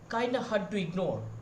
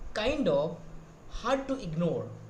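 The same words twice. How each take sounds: First: The phrase is said fast, with words run together. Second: The phrase is said slowly, each word separate. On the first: "as a foreigner ... They are very fast" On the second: "As an Indian, we are saying that"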